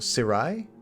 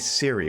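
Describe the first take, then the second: First: The name ends with an 'eye' sound. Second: The name ends with an 'ee' sound. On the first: The speaker calls it right. "it's supposed to rhyme with samurai" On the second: The speaker calls it wrong. "I always say"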